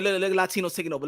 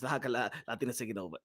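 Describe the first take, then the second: First: Rapid-fire, at usual pitch; quick statement. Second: Low, soft and fast; hushed quick statement. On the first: Host putting it to the audience about Latinos, quick statement. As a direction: rattle it off fast. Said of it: "put it this way". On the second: Host confiding to the audience about Latinos, hushed quick statement. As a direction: drop low and rush it under your breath. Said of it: "I'm gonna say it like this". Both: Shown as a demonstration.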